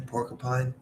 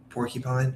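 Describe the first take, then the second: First: Porcupine with a reduced middle, "por-kuh-pine"; trying out pronunciation. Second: Porcupine with a clear "kyu" in the middle; trying out pronunciation. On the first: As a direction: say porcupine with "kuh", not "kyu". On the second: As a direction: sound out porcupine as "por-kyu-pine", questioningly. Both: Shown as a demonstration. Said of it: "how do I say it?".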